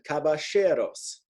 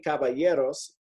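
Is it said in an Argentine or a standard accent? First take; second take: Argentine; standard. First: The double L sounds like sh, Argentine style. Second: The double L sounds like a Y sound.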